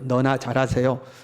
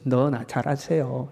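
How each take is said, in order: First: It is said flatly, without feeling. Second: It is said in a mocking, sarcastic tone.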